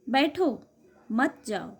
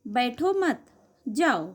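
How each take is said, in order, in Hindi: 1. विराम शब्द 'baitho' के बाद है। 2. विराम शब्द 'mat' के बाद है। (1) "दूसरे वाक्य में बैठने को कहा है, जाने को मना किया है।" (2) "पहले वाक्य में बैठने के लिए मना किया है, जाने को कहा है।"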